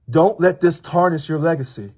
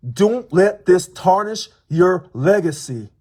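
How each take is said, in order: First: "let" stressed, normal pace. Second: "this" stressed, words drawn out slowly; slow stressed repeat. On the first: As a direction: union president warning the governor, firm stress on "let". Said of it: "repeated line". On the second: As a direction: union president repeating his warning to the governor, slow and deliberate. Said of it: "repeated slower". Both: Shown as a demonstration.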